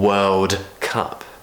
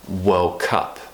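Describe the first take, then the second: First: The words are said separately with a clear D. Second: The words are joined, the D becoming G-like. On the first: "instead of being World Cup" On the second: "it becomes a connected World Cup"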